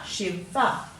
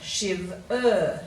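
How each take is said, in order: First: The final syllable is shortened to a schwa. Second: The final syllable ends in a full 'er' sound. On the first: "we often say" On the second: "but we should say"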